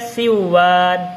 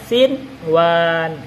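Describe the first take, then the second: First: The n merges into the following w. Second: The n is clearly heard before the w. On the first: The speaker calls it wrong. "nggak boleh dibaca siwan" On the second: The speaker calls it right. "harus dibaca sinwan. Itu harus dibaca idhar"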